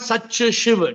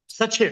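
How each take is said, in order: First: An extra vowel drags it into three syllables. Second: It is said crisply in just two syllables. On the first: The speaker calls it wrong. "Not such a Shiv. Don't like don't drag it" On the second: The speaker calls it right. "It's just two syllables"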